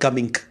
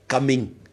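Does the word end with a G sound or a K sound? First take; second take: K; G. First: The word ends with a hard K sound. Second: The word ends with a soft G sound. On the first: The speaker calls it wrong. "Not coming. ... you're not supposed to hear the k at the end" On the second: The speaker calls it right.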